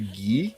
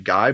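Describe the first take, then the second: First: The name is said the French way. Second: The name is said the English way. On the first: "like like the French pronunciation" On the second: "a lot of people say Guy"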